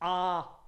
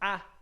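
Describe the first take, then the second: First: The vowel is held about twice as long. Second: The vowel is short and quick. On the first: "the long vowel, because it takes twice as long to pronounce" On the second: "the short vowel"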